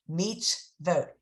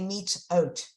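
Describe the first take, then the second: First: A V sound is heard before the final O. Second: No V sound is heard before the final O. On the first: The speaker calls it right. "Vote meets vote" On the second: The speaker calls it wrong. "You can't say meets oat"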